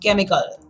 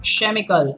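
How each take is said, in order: First: The word begins with a K sound. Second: The word begins with a CH sound. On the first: The speaker calls it right. "it is chemical" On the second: The speaker calls it wrong. "It's not chemical"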